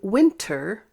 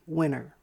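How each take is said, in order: First: The T is said crisply and clearly. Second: The T is softened. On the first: "instead of saying winter" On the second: "we soften the T and say winter"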